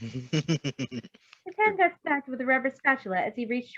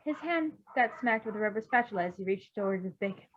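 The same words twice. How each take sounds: First: Slower, louder, still giggling; laughing through it. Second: Said in the usual way. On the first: Real, not acted. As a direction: reread the line while still laughing.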